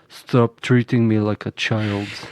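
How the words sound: It is said in a natural deep voice. "I have I have a deep voice"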